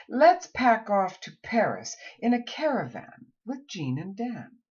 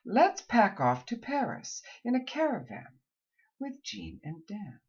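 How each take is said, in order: First: Let's said high and bright, ending on Dan; energetic one-group reading; lively phrasing. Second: Second take in two groups; lively repeat. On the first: Coach gives a final practice sentence. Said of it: "And finally". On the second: Coach repeats the final sentence. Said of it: "say them twice". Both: Shown as a demonstration.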